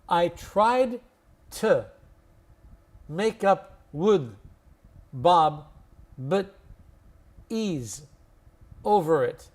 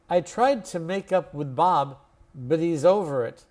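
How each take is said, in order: First: The sentence is spoken very slowly. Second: The sentence is spoken at normal conversational speed. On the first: "I'll say it really slowly first" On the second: "then I'll say it to normal speed"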